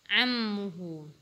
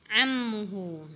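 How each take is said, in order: Both takes have the same delivery.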